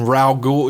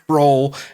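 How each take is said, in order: First: The name is said as two syllables. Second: The name is said as a single syllable. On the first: The speaker calls it right. "I know it's Raul" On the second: The speaker calls it wrong. "I did call him Roll once"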